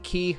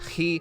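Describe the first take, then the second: First: It begins with a clean, hard K sound. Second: It begins with a raspy sound from the throat. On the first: "A lot of people call it Key" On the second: "the right pronunciation is that weird sound. It sounds like you're horking up a loogie"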